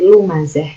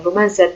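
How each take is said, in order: First: The word ends on a soft 'h' sound. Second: The word ends on a 't' sound. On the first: The speaker calls it right. "tapi lumazah" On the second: The speaker calls it wrong. "bukan lumazat"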